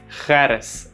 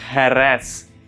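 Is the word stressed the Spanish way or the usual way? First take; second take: usual; Spanish. First: The word carries its usual local stress. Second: The word carries the Spanish stress.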